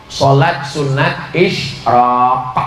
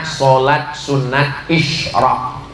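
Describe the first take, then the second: First: Sholat sunat isyraq, slowly, ending isyraq on a crisp back-of-throat k sound; isyraq with a clear final qaf. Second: Said in the usual way. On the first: Shown as a demonstration. Preacher teaching the congregation, isyraq said slowly with a crisp qaf k. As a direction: spell out isyraq with a firm qaf k at the end. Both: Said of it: "Pakai qaf".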